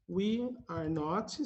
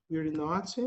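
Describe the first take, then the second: First: Slow and separated, unabbreviated; slow model phrase. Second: Said in the usual way. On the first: Shown as a demonstration. Teacher models the unabbreviated form, slow and separated. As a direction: say each word apart, unhurried. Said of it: "sem abreviar". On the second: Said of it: "ou então abreviado".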